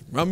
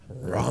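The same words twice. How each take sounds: First: The word is said quickly. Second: The word is said slowly. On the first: "Say it really fast" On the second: "Now say it slow"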